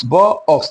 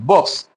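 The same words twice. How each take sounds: First: "ব, অক্স" broken into two separate parts; split word. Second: Said in the usual way. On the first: Shown as a demonstration. Teacher showing how one-syllable box is not said, split "ব, অক্স". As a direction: say "ব", pause, then "অক্স". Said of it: "এভাবে হয়". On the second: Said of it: "একবার আমরা উচ্চারণ করতে পারি".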